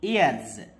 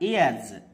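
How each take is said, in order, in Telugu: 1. ఈ పదం ఝుమ్ అనే z శబ్దంతో ముగుస్తుంది. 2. ఈ పదం ఝుమ్ అనే z శబ్దంతో ముగుస్తుంది.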